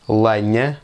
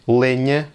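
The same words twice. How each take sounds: First: The stressed vowel sounds like an 'a'. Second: The stressed vowel sounds like an 'e'. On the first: This is how most speakers say it. "le E peut avoir le son E comme s'il s'agissait de la lettre A" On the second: This is a less common alternative. "vous pouvez aussi prononcer"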